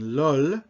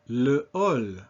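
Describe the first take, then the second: First: The article is run into the noun. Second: The article is said separately before the noun. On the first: The speaker calls it wrong. "instead of saying lol, L apostrophe H A L L" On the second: The speaker calls it right. "you say le hall"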